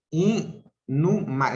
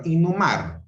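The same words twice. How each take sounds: First: Inhumar said slowly as i-nhu-mar; slow syllables. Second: Said in the usual way. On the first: Shown as a demonstration. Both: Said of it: "eso es una separación silábica".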